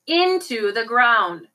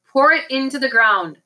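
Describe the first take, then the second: First: Slow, drawn-out command; heavily deliberate villain's order; slow, insistent repeat. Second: Said in the usual way. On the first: A narrator's reading. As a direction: stretch out each word as an order. Villain repeats order, much slower.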